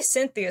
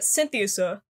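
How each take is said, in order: First: It is said in three syllables, like Cynthia. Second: It is said in four syllables, like synthesizer. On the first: The speaker calls it wrong. "I say Cynthia so that's not even right" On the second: The speaker calls it right. "but Synthesia. That's what I'm gonna say"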